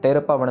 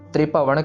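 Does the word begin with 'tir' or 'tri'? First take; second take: tir; tri. First: It begins with a separate 'tir' syllable. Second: It begins with a tight 'tri' cluster. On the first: The speaker calls it wrong. "तिर पवन नहीं करना" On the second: The speaker calls it right. "त्रिपवन कहना इसको"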